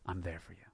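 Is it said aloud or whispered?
aloud. It is said aloud, more loudly.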